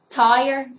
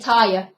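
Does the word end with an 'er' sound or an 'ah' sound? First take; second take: er; ah. First: The word ends with a plain 'er' sound. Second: The 'er' ending is dropped for an 'ah' sound.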